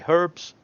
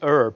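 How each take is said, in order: First: The word starts with an h sound. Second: The word starts without an h sound. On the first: This is how the speaker's own group says it. "We say H. We pronounce it" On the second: This is how the listener's group says it. "you guys say herb"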